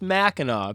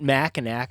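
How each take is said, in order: First: The final C is silent. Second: The final C is pronounced as a k. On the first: The speaker calls it right. "Apparently, that last C is cute" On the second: The speaker calls it wrong. "So it's not Mackinac"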